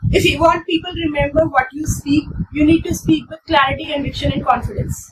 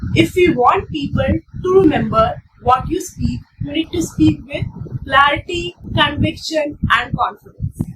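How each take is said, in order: First: It is said fast without pauses. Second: It is said slowly with pauses.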